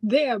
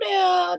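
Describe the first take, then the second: First: It is said in a plain, non-Southern way. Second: It is said in a Southern US accent.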